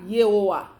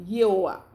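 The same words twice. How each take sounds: No difference in how they are said.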